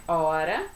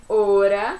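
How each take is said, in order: First: "hora" with a wide open o; open Portuguese hora. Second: "hora" with a closed o; Spanish hora. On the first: Teacher shows the open-o "hora" to avoid. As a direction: say "hora" with an open o, the wrong way for Spanish. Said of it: "não é hora". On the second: Teacher models Spanish "hora", closed o. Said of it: "em espanhol é hora". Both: Shown as a demonstration.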